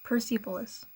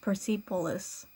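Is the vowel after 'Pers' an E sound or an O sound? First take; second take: E sound; E sound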